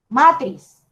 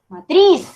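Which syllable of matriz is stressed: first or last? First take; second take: first; last. First: The stress is on the first syllable. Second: The stress is on the last syllable. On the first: The speaker calls it wrong. "Yo no digo matriz" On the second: The speaker calls it right. "el golpe de voz cae en la última sílaba"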